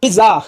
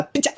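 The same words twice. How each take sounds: First: Said in the usual way. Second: "पिज्जा" with a ch sound, "piccha"; mispronounced pizza. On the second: Shown as a demonstration. Teacher showing students a wrong word, mispronounced "पिज्जा" as "piccha". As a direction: say "पिज्जा" wrongly as "pit-cha". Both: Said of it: "गलत pronunciation है यार".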